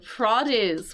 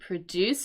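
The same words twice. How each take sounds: First: The stress is on the first syllable. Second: The stress is on the second syllable. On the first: It is the noun meaning fruit and vegetables. "with the accent on the first half" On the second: It is the verb meaning to make something. "with the accent on the second syllable"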